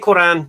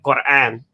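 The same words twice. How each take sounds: First: It is said with a simple English pronunciation. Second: It is said with Arabic sounds, including a deep q. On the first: "if you just say Quran, you're fine" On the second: "a letter that sounds like a ah"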